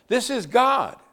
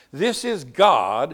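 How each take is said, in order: First: "God" high and falling hard; higher emphatic repeat. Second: "is" pressed, slow, louder; slow and emphatic on This is God. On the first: Preacher repeating to congregation with higher emphasis. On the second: Preacher marvelling at God weeping. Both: Shown as a demonstration. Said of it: "Let me say it again".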